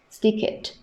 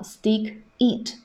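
First: "Stick it" run together, higher pitched; linked pronunciation. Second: Said in the usual way. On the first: Shown as a demonstration. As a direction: join the k of "Stick" onto "it". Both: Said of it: "我们一定要注意到stick it的连读".

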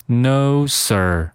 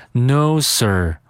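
The two takes are said the same way.

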